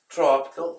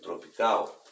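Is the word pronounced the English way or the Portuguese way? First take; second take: English; Portuguese. First: It is pronounced with English sounds. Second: It is pronounced with Portuguese sounds.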